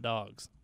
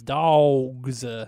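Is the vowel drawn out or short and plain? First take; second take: short; drawn out. First: The vowel is short and plain, like 'dogs'. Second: The vowel is drawn out, like 'dawgs'. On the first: It is the ordinary word. The speaker calls it wrong. "not dogs" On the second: It marks a true Georgia fan. The speaker calls it right. "they're the only dogs that spell it D-A-W-G-S"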